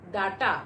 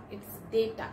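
First: Data. said as DAH-ta; Data. said wrongly, as DAH-ta; common mispronunciation. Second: Data. said as DAY-ta; data. said rightly, as DAY-ta; correct pronunciation. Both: Shown as a demonstration. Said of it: "No, it's not data".

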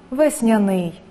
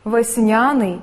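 First: Весняний with the stress on ний; весняний pronounced ves-nya-NYI; stress on last syllable. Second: Весняний with the stress on ня; Весняний pronounced ves-NYA-nyi; stress on middle syllable. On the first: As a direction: save the weight for the final syllable of весняний. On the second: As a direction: lean on the second syllable of Весняний. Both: Shown as a demonstration. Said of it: "Слова із подвійним наголосом".

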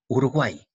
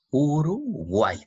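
First: Said in the usual way. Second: Slow, higher "Uruguay", uru, pause, guay; syllable by syllable. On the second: Shown as a demonstration. Teacher showing the final Y, "Uruguay" slowly split. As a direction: draw out "Uruguay" in two separate parts.

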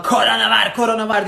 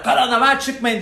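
First: Loud, higher mocking yell of the warning; hammed-up alarm shout. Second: Loud, higher laughing mock yell of the warning; hammed-up alarm shout with a laugh. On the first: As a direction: parody their panicked shouting. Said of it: "diye bağırıyorsunuz". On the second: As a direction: parody their shouted warning. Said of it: "diye bağırın".

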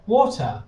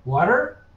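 First: "water" slow, rounded "aw" and no final R; British water. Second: "water" with an open first vowel and a clear R at the end; American water. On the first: Teacher offers learner the other accent option, "water" slow with the R dropped. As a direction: say "water" the British way, drawn out, ending in "uh". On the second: Teacher offers learner the first accent option, "water" with a sounded final R. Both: Shown as a demonstration. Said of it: "is it easier for you to say".

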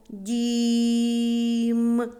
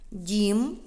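First: "дім" with a very long, level і; slow sounding-out of "дім", vowel sustained; drawn-out vowel. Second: Said in the usual way. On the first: Shown as a demonstration. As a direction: stretch the і in "дім" on one held, higher note. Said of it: "Промовимо слово". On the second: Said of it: "що зображено".

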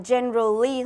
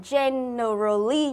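First: Generally said in three syllables, gen-ral-ly. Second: Generally said in four syllables, gen-er-al-ly; generally pronunciation. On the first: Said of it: "đọc thành ba âm tiết". (generally đọc thành ba âm tiết) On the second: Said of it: "đọc thành hai". (generally đọc thành bốn âm tiết) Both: Shown as a demonstration.

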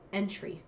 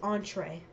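First: Entry as EN-tree; the misreading entry, EN-tree; mistaken pronunciation. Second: Entree as ON-tray; intended pronunciation. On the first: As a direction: say entry with a short EN and a final TREE. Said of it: "almost said a baked". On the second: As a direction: say entree with a French-style first syllable, ON-tray. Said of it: "I said, almost said a baked entry". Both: Shown as a demonstration.

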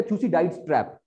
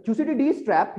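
First: थ्यूसिडाइड्स ending "-daids" before trap; थ्यूसिडाइड्स, one-syllable "daids" ending; alternative pronunciation. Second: थ्यूसिडिडीज ending "-di-deez" before trap; थ्यूसिडिडीज, two-syllable "di-deez" ending; alternative pronunciation. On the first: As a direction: say थ्यूसिडाइड्स with "eye" in the last syllable. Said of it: "कहीं थ्यूसिडाइड्स पढ़ लो". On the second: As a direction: say थ्यूसिडिडीज with a long "ee" last. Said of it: "कहीं को थ्यूसिडिडीज पढ़ लो". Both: Shown as a demonstration.

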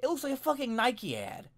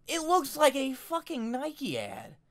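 First: Said in the usual way. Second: Higher and slow, each word hit; slow, emphatic repeat. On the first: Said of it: "I said to myself". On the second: Real, not acted. Vlogger repeating the verdict to the camera, slow emphatic stress. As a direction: drive home "Nike ad" slowly and pitched up.

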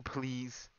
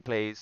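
First: Said in the usual way. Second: "plays" with an ay vowel in place of please; misspelling shown. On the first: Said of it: "He's not saying please". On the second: Shown as a demonstration. Player explains opponent's misspelt plea, misspelling shown. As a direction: stress "plays" to show the ay sound. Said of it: "He's saying plays".

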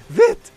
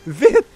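First: Much higher frantic yelp, louder; frantic shout. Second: High urgent call, louder; urgent shout. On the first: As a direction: push it up to panic. Urging again, more frantic. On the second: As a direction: hurry him along. Urging monster to die. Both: Real, not acted.

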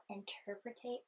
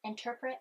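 First: "interpretate" said with an extra syllable, as inter-pre-tate; mispronounced word. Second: "interpret" said correctly in three syllables, in-ter-pret; corrected word. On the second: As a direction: fix it to "interpret", ending on -pret. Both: Real, not acted. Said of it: "there we go".

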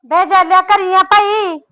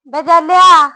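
First: Higher, louder call to the house; a woman calling to a man inside; calling out again. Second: Loud, high call from outside the door; a woman hollering at the gate. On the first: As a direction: holler up at the house, asking if he's in. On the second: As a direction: shout his name to the house. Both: Acted. Calling at the neighbour's door.

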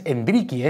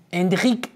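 First: "Enrique" said as en-DRI-ki, with an added final i; wrong pronunciation. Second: "Enrique" said as en-djik, closed on the k; higher pitched "Enrique" ending in a short ik; corrected pronunciation. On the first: Presenter showing the common mistake, "Enrique" ending in ki. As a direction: sound out "Enrique" with a closing ki. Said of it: "No es Enrique". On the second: Presenter correcting the name, "Enrique" ending in ik without a vowel. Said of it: "el D G final es como ic". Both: Shown as a demonstration.

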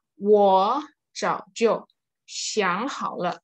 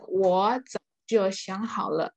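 First: 我早就想好了 slow, word by word, 我 rising in second tone; tone sandhi demo. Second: 我早就想好了 joined up, 我 rising in second tone; connected tone sandhi demo. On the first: Teacher models tone change to class, slow separated words. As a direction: spell out 我早就想好了 in separated chunks, lifting 我. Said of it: "kata pertamanya ini jadi nada dua". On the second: Teacher repeats the model sentence, more connected phrasing. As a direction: run 我早就想好了 together more smoothly, keeping 我 rising. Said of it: "jadi nada dua gitu". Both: Shown as a demonstration.

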